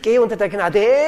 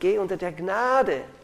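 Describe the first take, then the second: First: The words carry unnatural, misplaced syllable stress. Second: The words carry natural, normal syllable stress.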